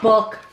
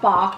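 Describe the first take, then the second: First: The vowel is short and rounded, like 'book'. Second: The vowel is open, like a chicken's 'bok'. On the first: The speaker calls it right. "supposed to be book, but said very quickly" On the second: The speaker calls it wrong. "not bok like a chicken"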